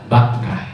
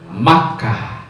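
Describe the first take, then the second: First: The name begins with a b sound. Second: The name begins with an m sound. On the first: This is the name used in the Quran. "Bakkah dengan huruf ba" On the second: This is the form Arabs prefer to say. "lebih senang mengucapkan Bakkah itu dengan mim"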